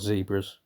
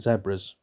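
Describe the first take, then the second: First: It is said the way Americans pronounce it. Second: It is said the speaker's usual, non-American way.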